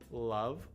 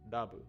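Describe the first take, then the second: First: It starts with a clear L, tongue centered. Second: It starts with a D-like sound, tongue raised. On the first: The speaker calls it right. "So we have love" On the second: The speaker calls it wrong. "which in Japanese you would probably pronounce something like dabu"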